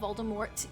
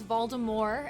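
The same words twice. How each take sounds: First: The final t sound is clearly pronounced. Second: The final t sound is left silent. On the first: The speaker calls it right. "even though there is very clearly a T" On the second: The speaker calls it wrong. "he says Voldemort"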